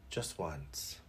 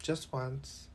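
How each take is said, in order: First: Softer, lower repeat of the same words; quiet echo. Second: Said in the usual way. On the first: Shown as a demonstration. Vlogger echoing himself quietly to the camera, quiet aside. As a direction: repeat it to yourself under your breath.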